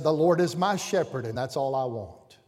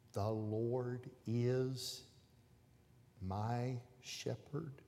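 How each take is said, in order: First: Put-on boy blurting it out louder; proud shout of the verse. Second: Very soft, very slow, barely voiced; mouthed words. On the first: Little boy on the platform blurting out his verse loudly. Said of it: "And in a loud voice". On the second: Teacher silently mouthing the verse to the stuck boy. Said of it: "she mouthed the words to him".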